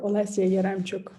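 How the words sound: The name is pronounced the general European way.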